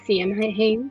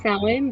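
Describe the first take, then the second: First: It is said letter by letter as written. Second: It is said unlike how the letters suggest. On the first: The speaker calls it wrong. "when you read it, it looks like Samhain" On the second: The speaker calls it right. "it's pronounced Samhain"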